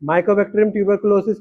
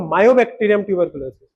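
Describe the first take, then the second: First: The first word begins 'myco', with a k sound. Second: The first word begins 'myo', with no k sound. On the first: The speaker calls it right. "की जगह" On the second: The speaker calls it wrong. "बोला मायोबैक्टीरियम tuberculosis. This is very shameful"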